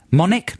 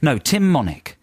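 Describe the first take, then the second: First: "Monick?" asked with a rising question tune; unsure name. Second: "Tim Monick" settled with a falling tune; firm correction. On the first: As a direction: test out "Monick?" hesitantly. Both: Real, not acted. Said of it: "I said that totally wrong".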